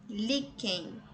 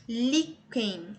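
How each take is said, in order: First: Said in the usual way. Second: Líquen split in two, strong "lí"; syllable by syllable. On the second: Shown as a demonstration. Teacher helping students find the tonic, líquen sounded out by syllables. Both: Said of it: "Você vai pronunciar aí devagarzinho".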